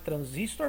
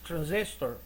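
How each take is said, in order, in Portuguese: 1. É pronunciada com pronúncia portuguesa. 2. É pronunciada com pronúncia inglesa.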